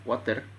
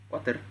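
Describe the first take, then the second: Both takes have the same delivery.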